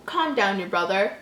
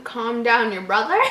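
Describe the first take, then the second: First: Said in the usual way. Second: Rising puzzled question; incredulous reread. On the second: Real, not acted. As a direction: reread it in disbelief. Rereads in disbelief.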